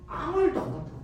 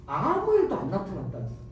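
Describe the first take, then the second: First: 일도 lifted higher, falling; 아무 일도 with 일도 raised; stressed repeat. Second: Said in the usual way. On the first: Shown as a demonstration. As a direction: stress 일도 in disappointment.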